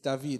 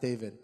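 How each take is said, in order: First: The name is said the Hebrew way. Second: The name is said the English way. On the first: This is the name as the speaker wants it said. The speaker calls it right. "I would try and correct them. It's David" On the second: This is how other people said the name. The speaker calls it wrong. "It's not David"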